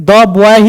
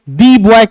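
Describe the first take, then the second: First: 'The' is said with a short 'uh' vowel. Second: 'The' is said with a long 'ee' vowel. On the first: The speaker calls it right. "द boy ही क्यों" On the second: The speaker calls it wrong. "दी boy क्यों नहीं?"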